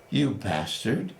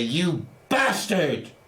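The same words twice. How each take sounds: First: It is said more quietly, with less force. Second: It is said loudly and forcefully.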